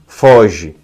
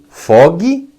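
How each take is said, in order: First: The g is soft, like a zh sound. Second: The g is hard, as in fogo. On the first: "ou você fala fojo, foge, seguindo outra métrica" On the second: "Você fala fogo, fogue, seguindo essa métrica"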